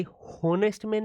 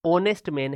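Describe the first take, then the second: First: हॉनेस्ट man said with a sounded h at the start; teacher shows the mistaken h in हॉनेस्ट man; wrong pronunciation. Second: ऑनेस्ट man with a silent h, starting on the vowel; teacher gives the right ऑनेस्ट man, h dropped; correct pronunciation. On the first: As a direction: pronounce हॉनेस्ट with the h, the way it is not said. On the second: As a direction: say ऑनेस्ट opening straight on the o sound. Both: Shown as a demonstration. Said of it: "ये हॉनेस्ट man नहीं है".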